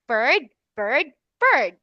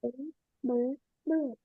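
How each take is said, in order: First: Bird, bird, bird said clearly, final d crisp; clear model word. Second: Bird, bird, bird mumbled very softly; mumbled repetition. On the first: Shown as a demonstration. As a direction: model Bird, bird, bird slowly for a child. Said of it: "let's say bird three times". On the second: Real, not acted. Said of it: "what are you doing, [name]".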